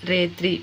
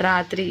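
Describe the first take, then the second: First: రేత్రి with long e for a; changed vowel. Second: Said in the usual way. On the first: Shown as a demonstration. Teacher showing a vowel change, రేత్రి with e for a. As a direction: say రేత్రి as "rehtri", long e first. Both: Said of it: "అచ్చులను మార్చడం ఏ విధంగా".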